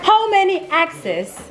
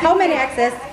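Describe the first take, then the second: First: It is said in a British accent. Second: It is said in a plain everyday accent.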